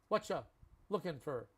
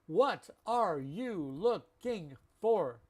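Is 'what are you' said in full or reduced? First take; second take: reduced; full. First: The opening words blend quickly into 'whatcha'. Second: Every word is said fully and separately. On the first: The speaker calls it right. "It's faster and it's how we all speak" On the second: The speaker calls it wrong. "That just takes so long. Six syllables"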